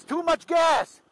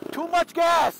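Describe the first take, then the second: First: Repeated high alarmed shout; nagging backseat driver. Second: High urgent shout of warning; nagging backseat driver. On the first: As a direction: shout it again, urgent. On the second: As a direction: yell the warning, alarmed. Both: Real, not acted. Learner revving, instructor calling out.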